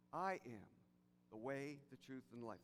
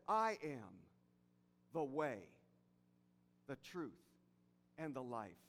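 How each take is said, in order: First: Soft, low run through "the way, the truth, and the life"; emphatic restatement. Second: Low, weighty words with long pauses between; emphatic quotation. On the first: Preacher reflecting Jesus' words to listeners, quietly emphatic. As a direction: pause after "I am", then list the rest quietly together. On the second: Preacher quoting Jesus' seminal words for Easter, emphatic and spaced out. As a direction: set "the way", "the truth", "and the life" each apart, low and deliberate. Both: Acted. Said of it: "Emphasis mine".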